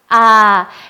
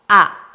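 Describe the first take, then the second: First: The vowel is held long and stays open. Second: The vowel is cut short by a throat closure. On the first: "아 했을 때 소리가 살아있죠? 살아있어요. 유지가 되는데" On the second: "만약에 단모음을 해볼게요. 아 소리가 끄 닫혀요"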